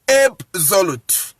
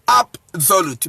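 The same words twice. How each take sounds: First: The first vowel sounds like the letter name 'ay'. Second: The first vowel sounds like an open 'ah'. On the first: The speaker calls it wrong. "So you don't pronounce it absolute" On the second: The speaker calls it right. "you pronounce it ah"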